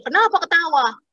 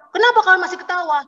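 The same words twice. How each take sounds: First: Imitated annoyance, pitched up; annoyed taxi driver. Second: High, quick mock outrage; angrier taxi driver. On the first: Taxi driver challenges his laughing passengers, mock annoyed. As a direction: demand an answer in a mildly angry, higher voice. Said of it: "Terus bapak taksinya marah". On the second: Taxi driver rounds on passengers still laughing, mock furious. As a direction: imitate a driver losing his temper, fast and raised. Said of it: "Terus dia makin marah".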